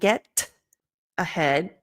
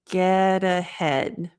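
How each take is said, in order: First: The T is a hard, aspirated stop. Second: The T is a soft flap linking words. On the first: The speaker calls it wrong. "harder, sharper, aspirated T" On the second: The speaker calls it right. "that half T, kind of a flap T"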